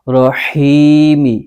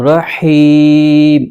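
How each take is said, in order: First: The word ends with a short i vowel. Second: The word ends on the m consonant.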